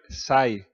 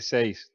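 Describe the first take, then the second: First: The word is said with a plain 'ai' vowel. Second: The word is said with an 'ei' vowel. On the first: "en Córdoba te sale sai" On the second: "no sale seis tampoco"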